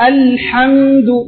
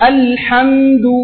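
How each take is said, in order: Both takes have the same delivery.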